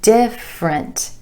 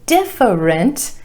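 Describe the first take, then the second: First: The word is said with two syllables. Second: The word is said with three syllables. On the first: The speaker calls it right. "only two syllables here" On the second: The speaker calls it wrong. "it looks like it should be different"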